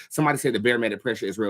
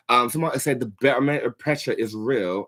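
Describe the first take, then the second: First: Said in the usual way. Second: Tripping over barometric pressure in a put-on accent; stumbling attempt. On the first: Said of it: "I couldn't say barometric pressure in that accent". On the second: Shown as a demonstration. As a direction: fumble the words barometric pressure. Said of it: "so I stuttered it".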